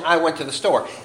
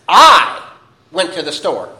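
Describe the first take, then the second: First: The word I is not stressed. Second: The word I is strongly stressed.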